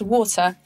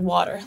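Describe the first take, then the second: First: It is said in a British accent. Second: It is said in an American accent.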